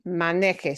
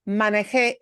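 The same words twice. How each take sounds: First: The last syllable is not stressed. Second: The last syllable is stressed. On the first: It is the subjunctive form of the verb. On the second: It means I drove, a past fact. "If I punch the last syllable, it becomes something totally different"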